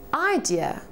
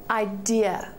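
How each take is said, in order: First: The stress is on the first syllable. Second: The stress is on the second syllable. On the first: The speaker calls it wrong. "instead of saying idea" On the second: The speaker calls it right. "the dear after the mark should be emphasized"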